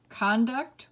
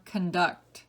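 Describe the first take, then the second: First: CON-duct, first syllable stressed. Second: Kun-DUCT, second syllable stressed. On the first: Teacher reading word list to students, conduct as CON-duct. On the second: Teacher giving other pronunciation, conduct as kun-DUCT. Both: Shown as a demonstration. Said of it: "give you both pronunciations".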